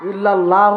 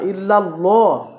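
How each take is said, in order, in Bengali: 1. L ধ্বনিটি হালকা ও পাতলা। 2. L ধ্বনিটি ভারী ও ভরাট। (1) "হবে না" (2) "লটা সুর হবে"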